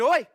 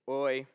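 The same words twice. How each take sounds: First: It sounds angry and sharp. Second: It sounds sad and low.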